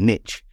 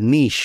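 First: It is said in an American way. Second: It is said in a non-American way.

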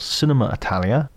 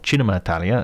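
First: It is said with an English accent. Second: It is said with an Italian accent.

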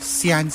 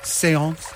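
First: It is said in a Cork accent. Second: It is said in a French accent.

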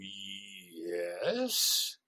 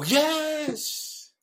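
First: It sounds wary and incredulous. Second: It sounds eager and agreeable.

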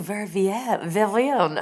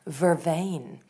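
First: It is said with a 'vee-en' ending. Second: It is said with a 'vain' ending. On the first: The speaker calls it wrong. "I'm sure I'm mispronouncing it" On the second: The speaker calls it right. "it's pronounced vervain"

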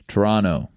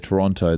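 First: The name is pronounced the way locals say it. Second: The name is pronounced the way outsiders say it. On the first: This is how people in the city say it. The speaker calls it right. "They say Toronto" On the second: This is not how people in the city say it. The speaker calls it wrong. "they don't say Toronto"

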